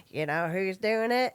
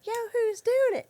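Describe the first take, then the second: First: Lilting repeated catchphrase; mom's playful teasing refrain; singsong stimming refrain. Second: Put-on much higher, louder kid echo of the refrain; kids mimicking. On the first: Retold or imitated. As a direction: sing it at the kids again and again. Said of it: "to my kids go". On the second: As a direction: echo mom back like a bratty kid. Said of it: "they'd go like".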